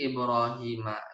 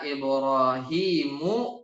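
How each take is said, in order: First: The name ends with an 'a' vowel. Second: The name ends with a 'u' vowel. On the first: Abraham is the one being tested. The speaker calls it right. "Ibrahimanya mansub sebagai objek" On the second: Abraham is the one doing the testing. The speaker calls it wrong. "jangan sampai dibaca salah harokat"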